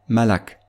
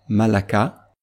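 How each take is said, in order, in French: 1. Le mot ne se termine pas par une voyelle finale. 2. Le mot se termine par une voyelle brève finale. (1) "cette voyelle est remplacée par un soukoun" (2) "tel qu'il doit être prononcé dans le cas d'une récitation continue"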